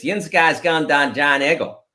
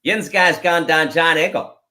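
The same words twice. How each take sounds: First: Lightly voiced Pittsburgh Yinzer phrase, "Dan" for down; a mild Pittsburgh accent demo. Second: The Pittsburgh phrase repeated with a light Yinzer accent. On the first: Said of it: "the classic Pittsburgh expression is". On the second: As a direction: say it again like a Pittsburgh local. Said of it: "say it again". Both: Shown as a demonstration.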